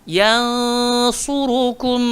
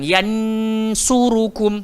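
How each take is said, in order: First: The n sound is hidden and nasalised. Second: The n sound is pronounced clearly. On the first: The speaker calls it right. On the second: The speaker calls it wrong.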